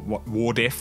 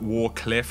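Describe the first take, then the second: First: The cl sound in the middle is dropped. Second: The d sound before cliff is dropped. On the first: "or Wardiff" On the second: "not Warcliff"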